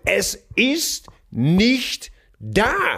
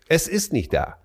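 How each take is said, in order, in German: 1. Er wird laut geschrien. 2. Er wird ruhig und in normaler Lautstärke gesprochen.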